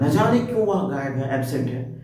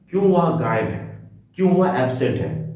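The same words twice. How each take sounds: First: न जाने पर ज़ोर देकर, हैरानी से; "न जाने" को खींचकर ज़ोरदार बोलें; emphatic न जाने क्यों. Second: Said in the usual way. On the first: Shown as a demonstration. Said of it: "emphasis देकर बोल रहा हूं". ("न जाने क्यों" पर बल देकर, चकित स्वर में) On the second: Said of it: "जैसे बोलते हैं".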